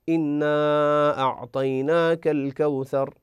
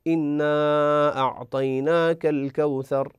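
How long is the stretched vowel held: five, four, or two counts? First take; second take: four counts; four counts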